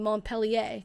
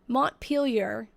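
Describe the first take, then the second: First: The name is said with a French-style pronunciation. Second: The name is said the way local residents say it. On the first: The speaker assumed the name was French. The speaker calls it wrong. "I was saying Montpellier because I thought it was French" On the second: This is how people who live there say it. The speaker calls it right. "it's Montpelier, it's pronounced"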